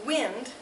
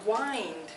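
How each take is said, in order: First: The vowel is short, as in 'tin'. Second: The vowel is long, as in 'time'. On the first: It names moving air. "as a noun, it is wind" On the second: It means to turn something to tighten it. "As a verb, it is wind, like you do with a clock"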